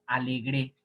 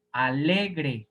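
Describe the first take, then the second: First: Alegre pronounced a-le-GRÉ; stress on last syllable. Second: Alegre as a-LE-gre, drawn on LE; stress on middle syllable. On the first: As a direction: move the stress of alegre to the final GRE. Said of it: "Si fuera aguda, se pronunciaría". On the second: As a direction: lean on LE in Alegre, then fall. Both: Shown as a demonstration.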